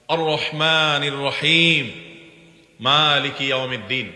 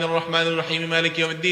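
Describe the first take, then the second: First: There is a pause between the two verses. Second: Both verses are rushed together in one breath.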